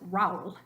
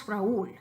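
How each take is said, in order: First: Raúl said as one syllable, rowl; wrong diphthong. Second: Raúl in two syllables, ra-ÚL, stress on ú; correct Raúl. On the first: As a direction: glide the a-u together into rowl. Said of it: "If there were no accent over the U". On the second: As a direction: break Raúl into ra-ÚL. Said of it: "We know it's Raúl". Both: Shown as a demonstration.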